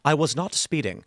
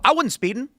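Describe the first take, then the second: First: It is said slowly with careful enunciation. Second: It is said quickly with words run together.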